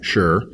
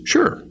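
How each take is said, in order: First: It is said in a low register. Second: It is said in a higher register.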